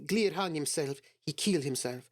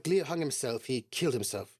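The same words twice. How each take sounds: First: It is said in a put-on Russian accent. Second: It is said in the speaker's ordinary accent.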